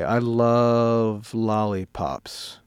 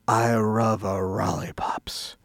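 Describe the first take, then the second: First: It is said in the speaker's plain accent. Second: It is said in an imitated Chinese accent.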